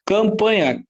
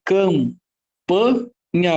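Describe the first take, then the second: First: Said in the usual way. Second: Campanha very slowly as cam, pa, nha; syllable by syllable. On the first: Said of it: "Quantos fonemas?". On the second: Shown as a demonstration. Teacher hunting for digraphs, campanha syllable by syllable. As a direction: break campanha into separate, drawn-out syllables. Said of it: "sempre tem que separar".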